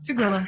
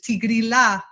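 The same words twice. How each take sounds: First: It is said with an American pronunciation. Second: It is said with an Italian pronunciation. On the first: "the Americans just say" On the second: "they pronounce it the Italian way"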